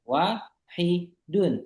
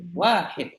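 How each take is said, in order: First: The word has three syllables, ending in -un. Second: The word has two syllables, ending cut off. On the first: "Tiga kata" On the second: "Dua suku kata kan?"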